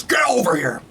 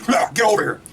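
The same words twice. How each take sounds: First: Mild Scorpion battle cry; a light take on the famous yell; imitating Scorpion. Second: High, harsh Scorpion battle cry; Scorpion yell. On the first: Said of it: "Scorpion comes in and goes". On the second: Retold or imitated. Scorpion pulling Cole away from Sub-Zero, yelling high. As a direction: bark it like the ninja hooking his foe. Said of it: "Scorpion goes".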